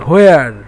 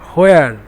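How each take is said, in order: No difference in how they are said.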